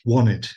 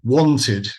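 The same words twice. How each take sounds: First: American style, the T is dropped. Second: The T is clearly pronounced.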